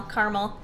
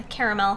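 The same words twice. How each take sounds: First: "caramel" said in two syllables, CAR-mul. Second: "caramel" said in three syllables, CARE-uh-mel. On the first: Vlogger trying the other way, "caramel" as car-mul. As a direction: drop the middle of "caramel", so it comes out car-mul. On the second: Vlogger weighing how to say it, "caramel" as care-uh-mel. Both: Shown as a demonstration. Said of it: "How do you say it?".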